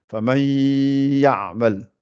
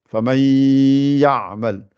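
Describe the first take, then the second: Both takes have the same delivery.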